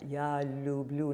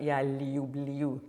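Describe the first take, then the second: First: The y-glides after the l sounds are faint. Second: The y-glides after the l sounds are strong. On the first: The speaker calls it right. "just have a little hint of that ya in there" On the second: The speaker calls it wrong. "not ya liu bliu"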